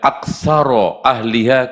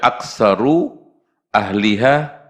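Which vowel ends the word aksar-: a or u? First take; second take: a; u. First: The word aksar- ends in an a vowel. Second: The word aksar- ends in a u vowel. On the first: The phrase stands in for the preceding noun. "kalau dibaca aksaro ahliha" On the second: The phrase is the subject of a new sentence. "kalau dibaca aksaru ahliha"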